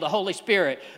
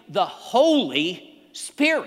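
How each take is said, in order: First: The phrase is said quickly and casually. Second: The phrase is said slowly and deliberately. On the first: The words are said without thinking about their meaning. The speaker calls it wrong. "we just say it really fast" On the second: The words are said with awareness of their meaning. The speaker calls it right. "we need to realize what we're saying"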